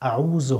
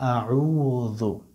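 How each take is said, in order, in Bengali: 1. মাঝের ব্যঞ্জনটি জিভ দাঁতে না লাগিয়ে উচ্চারিত হয়। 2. মাঝের ব্যঞ্জনটি জিভ দাঁতে লাগিয়ে উচ্চারিত হয়। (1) "আউযু হবে না" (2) "জিহ্বার মাথাটা একটু দাঁতের সামনের উপরে দাঁতের আগার সঙ্গে লাগিয়ে দিবেন"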